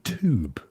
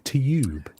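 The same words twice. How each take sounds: First: Said with a plain oo sound, no y. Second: Said with a y sound before the oo. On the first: "you guys say tube. So you pronounce it T O O B" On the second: "we pronounce it like there's a Y after it"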